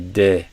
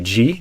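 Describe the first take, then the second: First: The syllable begins with a plain D sound. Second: The syllable begins with a J-like sound. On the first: The speaker calls it right. "we want to do de" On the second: The speaker calls it wrong. "we don't want to do G"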